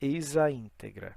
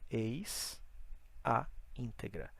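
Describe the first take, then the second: First: It is said quickly with the words linked together. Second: It is said slowly with words kept separate. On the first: "se você fala rápido, ele conecta"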